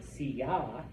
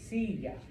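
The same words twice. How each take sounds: First: The stress is on the last syllable. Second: The stress is on the first syllable. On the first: The speaker calls it wrong. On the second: The speaker calls it right.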